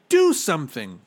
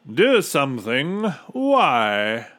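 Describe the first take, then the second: First: Loud, high urgent demand; raised voice falling at the end; shouting. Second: Loud, amused questioning echo; hearty, untroubled character voice; smiling captain. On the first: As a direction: shout it as a desperate order. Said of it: "shouted Bartholomew". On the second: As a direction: toss it back as a smug question. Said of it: "smiled the captain". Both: A narrator's reading.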